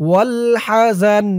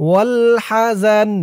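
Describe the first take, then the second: No difference in how they are said.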